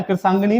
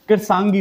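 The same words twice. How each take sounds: First: कृषांगिनी ending in "gi-nee"; wrong extended form. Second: कृषांगी ending on "gee"; correct short form. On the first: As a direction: add a final "ni" in कृषांगिनी. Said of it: "नहीं होता है". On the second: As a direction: end कृषांगी right after "gi". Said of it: "कृषांगी होता है". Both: Shown as a demonstration.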